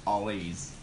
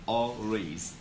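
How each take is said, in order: Both takes have the same delivery.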